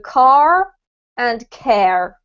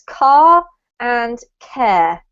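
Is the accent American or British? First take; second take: American; British. First: The words end with an R sound. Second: The words end without an R sound. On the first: "if you speak with an American accent, you need to add the R sound in" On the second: "if you speak with a British accent, then you should pronounce these words"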